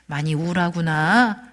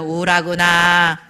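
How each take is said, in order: First: It is said in a natural, caring voice. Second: It is said in a flat, robotic voice.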